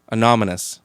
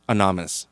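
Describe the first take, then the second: First: "Anonymous" said fully, a-NON-y-mous; correct pronunciation. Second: "Anonymous" slurred, middle syllable dropped; stumbled pronunciation. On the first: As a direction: land every syllable of "Anonymous". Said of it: "There we go". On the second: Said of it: "Try it one more time". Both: Shown as a demonstration.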